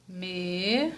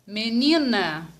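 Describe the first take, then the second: First: "Menina" as me, ni, na with long pauses, softly; syllable by syllable. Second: Said in the usual way. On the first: Shown as a demonstration. Teacher helping pupils think, menina said syllable by syllable. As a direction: split "Menina" into three soft, isolated syllables. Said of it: "Vamos falar devagar". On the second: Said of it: "Como que eu vou separar?".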